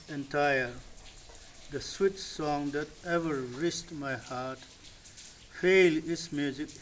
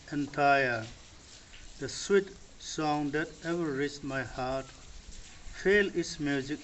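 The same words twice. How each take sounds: The two takes are said the same way.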